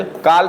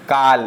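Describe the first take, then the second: First: काल with a rounded "aw", like English "call"; correct rounded vowel. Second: काल with an open, unrounded "aa"; wrong open vowel. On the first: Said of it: "ना कि". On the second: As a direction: misread काल as plain "kaal". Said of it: "इसलिए गलत है". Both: Shown as a demonstration.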